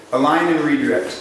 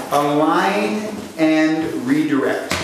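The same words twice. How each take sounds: First: Said in the usual way. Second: "align and redirect" said very slowly for note-taking; slow dictation. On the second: Shown as a demonstration. Coach dictates the pattern name to trainees, slow and deliberate. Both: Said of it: "jot this down".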